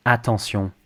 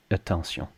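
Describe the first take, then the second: First: Attention as AH-ton-syon; full French vowel. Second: Attention softer, as uh-ton-syon; crushed vowel. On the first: Teacher models it for learners, full-vowel French attention. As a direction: clear open A starting attention. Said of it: "make sure you say attention". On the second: Teacher shows what to avoid, crushed-vowel attention. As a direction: reduce the A of French attention to uh. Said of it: "not attention". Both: Shown as a demonstration.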